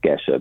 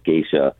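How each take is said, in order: First: The first vowel is a plain 'eh' sound. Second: The first vowel glides like 'ay' with added 'ee'. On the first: This follows the original Ethiopian region name. "it's spelled G-E-S-H-A, so it's pronounced Gesha" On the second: This form had a sound added along the way. "it got this I added, and it's also said as Geisha"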